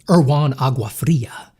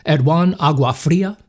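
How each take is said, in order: First: Slow, careful "Erwan Aguafria" sounded out syllable by syllable; slow, deliberate reading of "Erwan Aguafria"; careful name. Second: Said in the usual way. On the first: Shown as a demonstration.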